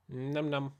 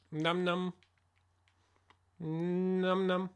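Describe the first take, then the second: First: Playful eating noise. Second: Higher cutesy eating noise; playful num num. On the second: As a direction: squeak it playfully. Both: Pretend. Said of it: "I'll stop playing".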